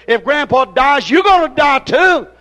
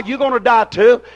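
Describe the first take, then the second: First: Refrain pushed higher and louder; pulpit shout. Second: Said in the usual way. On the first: Acted. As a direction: hammer the refrain home. Refrain repeated, climbing louder.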